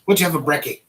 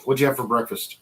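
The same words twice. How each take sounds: First: Tentative Aussie slang. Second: Said in the usual way. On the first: Pretend. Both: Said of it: "I think that's how you say it".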